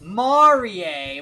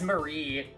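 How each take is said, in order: First: The name is said with an exaggerated Japanese pronunciation. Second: The name is said with a plain English pronunciation. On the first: This is how the voice lines say the name. "overly Japanese pronunciation" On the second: This is how the name was read on screen. "I read it as Marie"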